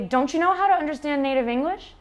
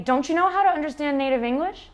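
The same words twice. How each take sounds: First: The words are said quickly and run together. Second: The same.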